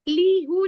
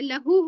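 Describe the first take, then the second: First: The first vowel is a long 'ee'. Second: The first vowel is a short 'a'. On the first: The speaker calls it wrong. "लीहू नहीं होगा" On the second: The speaker calls it right. "लहू होगा"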